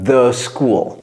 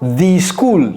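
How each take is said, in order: First: 'The' is said with a short 'uh' vowel. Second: 'The' is said with a long 'ee' vowel. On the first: The speaker calls it right. "c'est the school" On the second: The speaker calls it wrong. "Donc ne dites pas the school"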